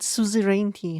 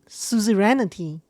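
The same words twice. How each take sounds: First: The N and I sounds keep their usual order. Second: The N and I sounds are swapped around. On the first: "So she pronounced it suzerainty" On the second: "He flipped the N and I around"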